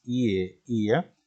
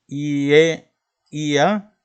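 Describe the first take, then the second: First: Said in the usual way. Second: "I, E, I, A" called out higher and louder, letter by letter; letters spelled out. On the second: Shown as a demonstration. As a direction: spell each letter out with a push. ("I, E, I, A" deletreado letra por letra, más agudo y fuerte) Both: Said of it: "empieza con las letras".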